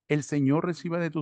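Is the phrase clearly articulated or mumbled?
clearly articulated. The words are clearly and fully articulated. The speaker calls it right. "tenemos que vocalizar"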